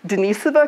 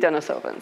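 First: The name is said the Russian way. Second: The name is said the local way. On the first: "according to the Russians, they pronounce it Denisova cave" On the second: "over here they say Denisova"

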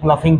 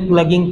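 First: It is said with an 'f' sound. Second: It is said with a hard 'g' sound. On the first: "किसी ने प्लफिंग पढ़ा" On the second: "किसी ने प्लगिंग पढ़ा"

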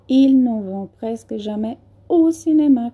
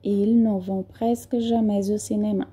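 First: The words are kept separate without a linking consonant. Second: A final consonant is linked to the next vowel. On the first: "Vocês podem também pronunciar. ... que também está correto" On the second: "Aqui também eu fiz a liaison"

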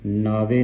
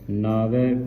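First: The word ends in an 'e' vowel. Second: The word ends in an 'ai' vowel. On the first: The speaker calls it wrong. "ਨਾਵੇ ਨਹੀਂ ਪੜ੍ਹਨਾ" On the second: The speaker calls it right. "ਵਾਵੇ ਨੂੰ ਦਲਾਵਾਂ ਲੱਗੀਆਂ"

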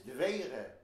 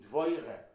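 First: It has the Lithuanian Yiddish stressed vowel. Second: It has the Southern Yiddish stressed vowel. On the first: "in Vilna" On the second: "she'd be"

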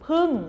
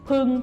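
First: The syllable has a falling tone. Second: The syllable has a level mid tone. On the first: "โท" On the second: "สามัญ"

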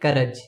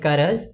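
First: The word ends with a 'j' sound. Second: The word ends with a 'z' sound. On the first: "We usually say it karaj" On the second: "We should actually pronounce it in this way"

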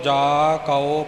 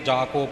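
First: The word after 'ja' is said 'kau'. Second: The word after 'ja' is said 'ko'. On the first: The speaker calls it right. "ਜਾ ਕਉ ਕੱਕਾ ਊੜੇ ਔਂਕੜ" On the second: The speaker calls it wrong. "ਇਉਂ ਇਹ ਉਚਾਰਨ ਰਲ ਨਾ ਜਾਵੇ ... ਇਉਂ ਨਹੀਂ"

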